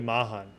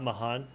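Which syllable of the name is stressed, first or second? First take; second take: first; second. First: The stress is on the first syllable. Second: The stress is not on the first syllable. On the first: The speaker calls it right. "The accent on the first day" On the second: The speaker calls it wrong. "Not Mahan"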